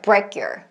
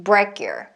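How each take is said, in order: No difference in how they are said.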